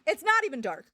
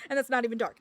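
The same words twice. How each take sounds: First: Louder, punching not; louder indignant repeat; emphatic protest. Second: Said in the usual way. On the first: Real, not acted. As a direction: stress NOT in disbelief. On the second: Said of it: "repeated louder".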